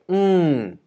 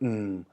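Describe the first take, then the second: First: The pitch starts high and falls steeply. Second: The pitch starts low and sinks lower. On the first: "the falling tone, which is falling" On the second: "low tone which goes down"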